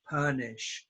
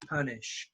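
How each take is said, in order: No difference in how they are said.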